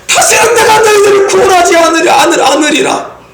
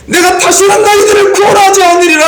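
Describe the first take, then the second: First: Faltering angry God. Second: High, loud thundering refusal; angry God shouting. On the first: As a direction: shout it but let it stumble, as if holding back. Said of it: "하나님의 마음이 진짜겠습니까? 아니죠". (더듬으며 외치는 하나님의 진노) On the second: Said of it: "하나님이 이렇게 막 화를 내요". (크게 외치는 화난 하나님 목소리) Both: Acted.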